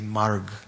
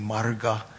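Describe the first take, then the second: First: The word ends on the consonant g. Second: The word ends with a final a vowel. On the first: This is the modern Hindi form of the word. "they often drop the final A. ... they say marg" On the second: This is the older form of the word. "Instead of saying marga"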